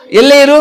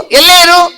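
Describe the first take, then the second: First: Said in the usual way. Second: High puppet voice; puppet reciting. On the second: Acted. Puppet continues the advertisement, high puppet voice.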